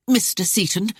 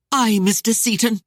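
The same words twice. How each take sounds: First: Defiant rise on Mister Seaton; hurled answer. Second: Louder, higher bitter burst with stressed Aye; bitter ire. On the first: Lady defiantly addressing the captain, lifting his name. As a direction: say Mister Seaton with a challenging lift. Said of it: "Arienne hurled back her answer". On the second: Lady bitterly dismissing the captain, louder and higher. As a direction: spit Aye, Mister Seaton out bitterly. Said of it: "The words burst out in bitter ire". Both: A narrator's reading.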